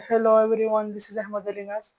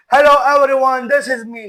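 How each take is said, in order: First: Higher, level-toned greeting at ordinary volume; contrasting voice demo. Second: Loud, higher-pitched hello; big projected greeting. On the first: Speaker demonstrating range of voice to viewers, raised but unforced greeting. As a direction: say hello on one held, raised note, tailing off. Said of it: "And if I say". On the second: Speaker showing a bad example of vocal range, loud and high. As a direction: belt out the greeting, voice raised high. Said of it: "a good range of voice, for example, say". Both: Shown as a demonstration.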